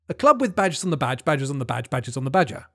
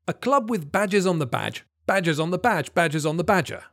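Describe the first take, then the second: First: It is said a bit faster. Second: It is said at a normal speed.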